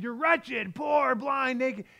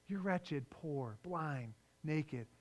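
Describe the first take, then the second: First: It is said in a harsh, rebuking tone. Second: It is said in a gentle, compassionate tone. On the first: The words scold and condemn the listener. The speaker calls it wrong. "it wasn't as much of a rebuke saying" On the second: The words come from love and concern for the listener. The speaker calls it right. "you would want to read it with compassion"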